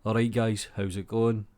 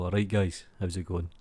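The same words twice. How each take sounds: First: Said in the usual way. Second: Really getting into it. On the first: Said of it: "that's not how you say it". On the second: Shown as a demonstration. Streamer shows how to say his greeting, getting into it. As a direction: get into the greeting. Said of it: "You need to get into it".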